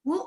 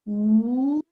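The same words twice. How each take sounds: First: उ said very short; brief उ, teacher's demo; short vowel उ. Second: उ stretched out and held; sustained, drawn-out उ; long vowel उ. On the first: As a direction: cut उ off quickly. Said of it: "इसे हम short vowel कहते हैं". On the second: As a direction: draw उ out long. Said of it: "जिसे हम लॉन्ग वोवेल कहते हैं". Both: Shown as a demonstration.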